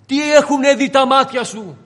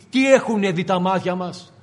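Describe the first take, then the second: First: "Τι έχουνε δει τα μάτια σου" thrown out loud and higher; loud preaching climax. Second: Said in the usual way. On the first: Acted. Jesus demanding of Peter what he has seen, loud. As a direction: hurl the question at Peter.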